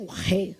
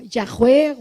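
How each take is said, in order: First: Yahweh repeated much softer and lower, almost to herself; soft echo. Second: Yahweh said as ya-HWEH with a throaty h, like the Jewish man; imitated Hebrew pronunciation. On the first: Retold or imitated. Preacher softly repeats the Jewish man's Yahweh, lower. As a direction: echo Yahweh back quietly, trying the sound. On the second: Preacher imitates a Messianic Jew saying Yahweh, throaty h. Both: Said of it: "lo escuché decir algo como".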